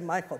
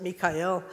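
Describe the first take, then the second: First: The name is said the usual English way. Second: The name is said the local, non-English way. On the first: This is how English speakers say it. "we would say Michael" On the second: This is how the local people say it. "they pronounce it Mikael"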